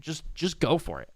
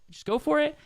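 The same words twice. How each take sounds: First: Said in the usual way. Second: Just go for it lifted much higher; higher pitched encouragement. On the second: Real, not acted. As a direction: push it up high, cheering them on. Encouraging repeat, second take raised.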